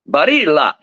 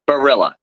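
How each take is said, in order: First: The name is said with an Italian pronunciation. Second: The name is said with an American pronunciation. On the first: "the Italians kind of say Barilla" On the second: "in the U S A, growing up, it's in my town, I'm known as"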